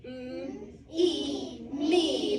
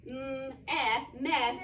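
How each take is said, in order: First: "Mm, e, me" blended with a long "ee"; "me" built sound by sound, long E; correct sounding-out. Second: "mm, eh, meh" blended with a short "eh"; "meh" built sound by sound; wrong sounding-out. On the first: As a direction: sound out "me" piece by piece, louder on the word. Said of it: "what would it be". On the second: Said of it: "instead of sounding this out". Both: Shown as a demonstration.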